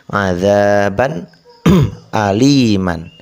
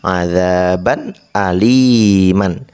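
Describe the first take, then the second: Both takes have the same delivery.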